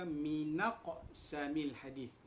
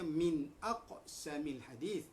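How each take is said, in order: First: The n joins the next syllable: minaq samil. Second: Min is said whole, then a separate aqsamil. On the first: It fits the meter of the poem. The speaker calls it right. "dalam nazam ini maka ia dibaca minaq samil hadith" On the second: It follows the normal grammar. The speaker calls it wrong. "jangan dibaca min aqsamil, ya, betul dari segi nahwunya"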